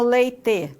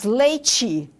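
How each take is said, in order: First: It is said in a non-local way. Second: It is said in the north Paraná way.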